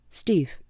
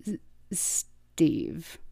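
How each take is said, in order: First: Said in the usual way. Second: Soft breathy stammer on the name; shy stammered whisper. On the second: A narrator's reading. Shy robot whispering his name to Starscream. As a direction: whisper your own name, tripping on it. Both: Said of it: "the Viacon supplied".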